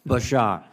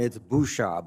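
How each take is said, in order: First: The name is said as Ba-shar, no final d. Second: The name is said as Boo-shard, with final d. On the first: This is how the bearer of the name says it. "but Bashar for the moment" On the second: This is how the name is said locally in Rhode Island. "in Rhode Island, it's Bouchard"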